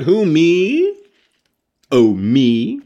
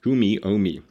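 First: Loud, high-pitched mock-startled Clyde; startled exclamation. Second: Said in the usual way. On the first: A narrator's reading. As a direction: exclaim it loudly, hamming up the flustered question. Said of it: "exclaimed Clyde".

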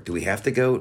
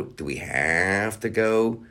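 First: Said in the usual way. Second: "have" drawn out long; stretched HAVE. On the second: Real, not acted. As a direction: drag out the word "have" in complaint.

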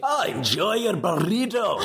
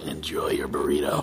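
First: Slow Scottish groundskeeper read of the sign-off; Scottish accent. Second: Castiel voice. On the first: Asked for a Scottish accent read of the podcast sign-off, hammed-up Scottish. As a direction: roll it out in a gruff Scottish brogue. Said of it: "a terrible Scottish accent read". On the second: Asked for a Castiel read of the sign-off, low and grave. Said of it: "Now, now do the Castiel". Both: Pretend.

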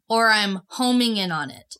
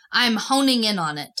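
First: "homing" said with an M in the middle; M sound in "homing". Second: "honing" said with an N in the middle; N sound in "honing". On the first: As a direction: close the lips for the M in "homing". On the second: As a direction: make the middle of "honing" a clear N. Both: Shown as a demonstration. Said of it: "So an N or an M?".

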